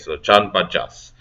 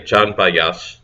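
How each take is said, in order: First: The second word begins with a J sound. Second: The second word begins with a Y sound. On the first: The speaker calls it right. "Oh no, you would pronounce it as a J" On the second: The speaker calls it wrong. "I'll just pronounce the J as like a Y this time"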